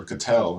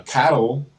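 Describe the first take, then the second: First: Cattell, stressed on the second syllable; alternative pronunciation. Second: Cattle, stressed on the first syllable; first pronunciation option. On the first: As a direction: say Cattell as kuh-TELL. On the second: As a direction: say Cattle to rhyme with "battle", drawn out. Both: Shown as a demonstration. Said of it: "I don't know how you say it".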